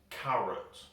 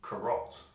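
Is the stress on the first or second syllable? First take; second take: First; Second. First: The stress is on the first syllable. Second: The stress is on the second syllable. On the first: The speaker calls it right. "we put the stress of the word in the A" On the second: The speaker calls it wrong. "If we put the stress on the O, then it'd sound like carrot. We don't say that, that's awful"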